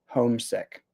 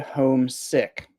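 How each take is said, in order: First: Only one part carries the stress. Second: Both parts carry equal stress. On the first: Someone misses their home. "one word" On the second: Someone stayed at home because they were ill. "two words ... you actually kind of really emphasize both"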